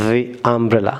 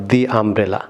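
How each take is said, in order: First: "the" as thee before "umbrella"; right the. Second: "the" as thuh, slowly, before "umbrella"; slow thuh umbrella, the wrong way. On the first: Teacher gives the correct "the" before a vowel. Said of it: "not the umbrella". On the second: Teacher shows the wrong "the", slowly. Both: Shown as a demonstration.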